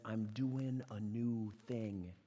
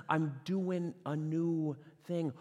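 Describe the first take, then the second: First: I'm doing a new thing drawn out slowly and softly; slow, quiet voice of God. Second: I'm doing a new thing stretched slow at full voice; slow voice of God. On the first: Pastor voicing God, slow and hushed. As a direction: lay each word down like a quiet promise. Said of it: "the first donkey is one that says". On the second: Pastor repeating God's words, slow and firm. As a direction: proclaim it slowly. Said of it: "the next donkey that says". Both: Acted.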